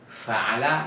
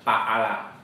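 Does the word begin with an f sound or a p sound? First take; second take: f sound; p sound. First: The word begins with an f sound. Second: The word begins with a p sound. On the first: The speaker calls it right. "kita baca fa dengan f, bukan pa" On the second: The speaker calls it wrong. "mereka baca pa'ala"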